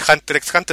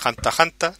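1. La letra X se pronuncia entre las dos palabras. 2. No se pronuncia ningún sonido X entre las dos palabras. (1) "No se dice Hunter X Hunter" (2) "se dice Hanta Hanta, no sé, la X no se pronuncia"

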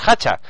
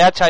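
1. La palabra empieza con h aspirada. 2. La palabra empieza con h muda. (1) "H's aspiradas y ... dices hacha" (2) "en vez de hacha"

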